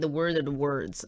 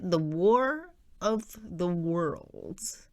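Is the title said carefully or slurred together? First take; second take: slurred; carefully. First: It is said quickly with the words blurred. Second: It is said slowly with each word clear. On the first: The speaker calls it wrong. "otherwise I'm not. I'm gonna say" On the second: The speaker calls it right. "I have to slow it down"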